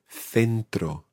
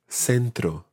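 First: The first consonant is a th sound. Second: The first consonant is an s sound. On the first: This is how it is said in Spain. "So in Spain, it's th as in th" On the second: This is how it is said in most of Latin America. "in most of Latin America, and indeed some parts of Spain, you would say"

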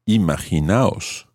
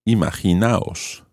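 The two takes are said the same way.

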